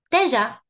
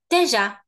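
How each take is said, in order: The two takes are said the same way.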